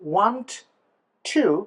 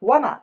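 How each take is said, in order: First: The two words are said separately and fully. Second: The words blend into one reduced word.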